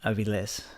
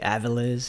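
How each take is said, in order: First: The name is said with a Spanish accent. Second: The name is said with an English accent.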